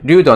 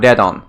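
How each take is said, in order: First: The first syllable has an 'oo' vowel. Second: The first syllable has an 'eh' vowel. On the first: The speaker calls it right. "in Japanese, it's du" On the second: The speaker calls it wrong. "not dedon"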